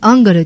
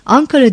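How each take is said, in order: First: The middle consonant is a g sound. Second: The middle consonant is a k sound. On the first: This deliberately shows a local provincial dialect. "Angara diyor, yerli ağzını özellikle belirtiyor" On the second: This is the standard city way of saying it. "Ankara değil"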